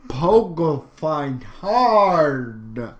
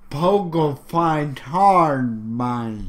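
First: Stoner voice. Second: Said in the usual way. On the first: Pretend. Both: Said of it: "I don't have a good stoner voice".

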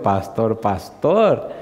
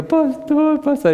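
First: Echoing her call. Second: Very high, drawn-out squeal; high-pitched mock wail; imitating emotional wife. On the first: Retold or imitated. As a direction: back in his own register, rising on the second. His own reply to the wife. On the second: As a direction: mimic an overcome woman calling out in falsetto. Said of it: "Y empezó a llorar".

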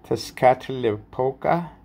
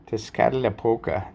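First: Slow, unsure name with a rising question; questioning rise. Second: Said in the usual way. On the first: Real, not acted. Unsure first try at the name.

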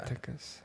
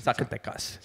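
First: Zacatecas whispered under the breath; a soft whispered Zacatecas; whispered place name. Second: Zacatecas said softly, half whispered, stress on TE; hushed, careful Zacatecas; savoured place name. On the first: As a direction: Zacatecas barely voiced, stress on TE. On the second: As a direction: Zacatecas breathed out as zack-uh-TEK-us. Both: Shown as a demonstration. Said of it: "It's fun to say".

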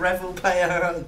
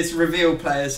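First: "Revel" said like the word revel, REV-ul; "Revel" as REV-ul instead of ree-VEEL; mispronounced reveal. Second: "reveal" said properly, ree-VEEL; "reveal" with the stress on VEEL; "reveal" set right as ree-VEEL; corrected reveal. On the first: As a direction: Revel Player with "Revel" as REV-ul, the joke wrong way. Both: Shown as a demonstration.

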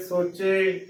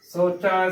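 First: ਸੋਚੇ with a close e ending; wrong pronunciation. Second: ਸੋਚਾ with an open ai ending, sochai; correct pronunciation. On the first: Teacher showing the mistake, ਸੋਚੇ with single-lav e. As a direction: end ਸੋਚੇ on a narrow ay. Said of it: "ਗਲਤ ਉਚਾਰਨ ਹੋਏਗਾ". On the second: Teacher showing the right reading, ਸੋਚਾ as sochai. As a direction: end ਸੋਚਾ on open ai, not e. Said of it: "ਸਹੀ ਉਚਾਰਨ ਹੈ". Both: Shown as a demonstration.

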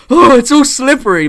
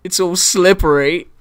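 First: High, loud, hammed-up horror; mock horrified. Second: A lightly voiced quote, rising up at the end; movie line quote. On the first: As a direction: act shocked and horrified, voice jumping up high and loud. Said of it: "look horrified and be like". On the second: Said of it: "and he says".

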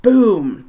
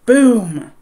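First: Booming slam. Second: Louder, higher Boom!, harder hit; bigger booming slam. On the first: Pounding on trap door. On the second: Someone strong slams the trap door, louder boom. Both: A narrator's reading.

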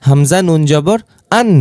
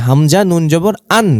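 Both takes have the same delivery.

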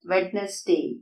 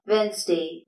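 First: "വെഡ്നസ്ഡേ" with the D sounded, wed-nes-day; common mispronunciation. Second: "വെൻസ്ഡേ" as WENZ-day, first D silent; correct pronunciation. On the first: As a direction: say "വെഡ്നസ്ഡേ" in three syllables. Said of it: "തെറ്റായിട്ടാണ് pronounce ചെയ്യുന്നത്". ("വെഡ്നസ്ഡേ" തെറ്റായി "ഡ്" ഉച്ചരിച്ച്) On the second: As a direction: say "വെൻസ്ഡേ" in two syllables. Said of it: "ഇവിടെ ഡി silent ആണ്". ("വെൻസ്ഡേ" ശരിയായി, ആദ്യ "ഡി" ഇല്ലാതെ) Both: Shown as a demonstration.

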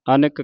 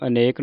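First: ਅਨਕ with a short middle vowel; correct short-vowel reading. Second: ਅਨੇਕ with a long "ay" in the middle; wrong long-vowel reading. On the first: Teacher showing the right reading, ਅਨਕ with short middle vowel. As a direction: say ਅਨਕ as "a-nuk". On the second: Teacher showing what not to read, ਅਨੇਕ with long middle vowel. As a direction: say ਅਨੇਕ as "a-NAYK". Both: Shown as a demonstration. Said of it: "ਇਹਨੂੰ ਅਨੇਕ ਨਹੀਂ ਪੜ੍ਹਨਾ".

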